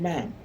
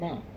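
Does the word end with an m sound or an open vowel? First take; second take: m sound; open vowel. First: The word ends with a closing m sound. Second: The word ends on an open vowel. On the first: The speaker calls it right. "the proper way is good afternoon, ma'am" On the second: The speaker calls it wrong. "Not good afternoon, ma"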